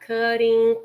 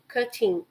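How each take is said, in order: First: The middle consonant is a soft, r-like flap. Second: The middle consonant is a crisp, clear t. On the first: "has the R sound" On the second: "you can also use the T"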